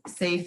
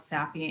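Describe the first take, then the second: First: It is said as one syllable, like 'safe'. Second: It is said as two syllables, ending in 'ee'. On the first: The speaker calls it right. "SAFE is how it is pronounced" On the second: The speaker calls it wrong. "you're not the first person to call it SAFI"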